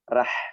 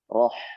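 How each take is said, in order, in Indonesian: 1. R-nya tipis. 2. R-nya tebal. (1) "tidak bisa kita membaca dengan suara tipis" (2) "ro tebal karena harokatnya fathah"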